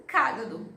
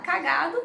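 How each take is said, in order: First: CÁgado com a primeira sílaba forte; tônica no CÁ. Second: CaGAdo com a segunda sílaba forte; tônica no GA. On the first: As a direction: acentue o CÁ de cágado. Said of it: "por causa de um acento". (cágado como proparoxítona) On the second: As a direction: acentue o GA de cagado. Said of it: "Se eu falar cagado". (cagado como paroxítona) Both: Shown as a demonstration.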